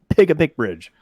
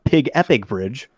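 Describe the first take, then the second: First: The name is said as pig-a-pick. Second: The name is said as pig-epic. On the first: The speaker calls it right. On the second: The speaker calls it wrong. "not Pig Epic Bridge"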